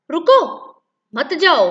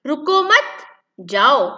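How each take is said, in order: First: रुको alone, high and loud, pause, then मत जाओ; pause after रुको. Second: Slow रुको मत as one phrase, pause, then जाओ; pause after मत. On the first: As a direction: stop after रुको, keep मत जाओ together. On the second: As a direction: join रुको and मत, break before जाओ. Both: Shown as a demonstration. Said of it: "विराम चिन्ह के प्रयोग से किस प्रकार भाषा".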